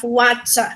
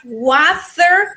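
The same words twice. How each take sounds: First: WATER in the second accent, ending in an open "ah"; WATER as "watcha", for an accent comparison; accent contrast. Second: WATER drawn out in the first of two accents, British or American; WATER slowed for an accent comparison; accent contrast. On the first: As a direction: demo accent on water, no final R. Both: Shown as a demonstration. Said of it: "the British accent and the American accent".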